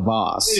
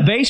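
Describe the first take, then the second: First: It is pronounced the fancy, posh way. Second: It is pronounced the plain, everyday way. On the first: It is an expensive, fancy vase. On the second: It is an ordinary vase.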